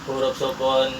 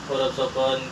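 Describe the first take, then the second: The two takes are said the same way.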